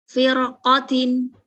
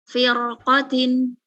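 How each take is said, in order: No difference in how they are said.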